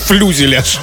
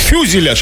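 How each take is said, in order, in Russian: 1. В слове есть лишний l после f. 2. Слово начинается с f, за которым сразу идёт yu. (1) "а не флюзеляж" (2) "Фюзеляж, а не флюзеляж"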